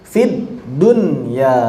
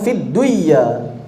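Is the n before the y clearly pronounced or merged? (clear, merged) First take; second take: clear; merged. First: The n before the y is clearly pronounced. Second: The n is merged into the following y. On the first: The speaker calls it right. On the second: The speaker calls it wrong.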